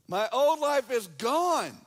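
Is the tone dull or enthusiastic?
enthusiastic. It is said with lively enthusiasm. The speaker calls it right.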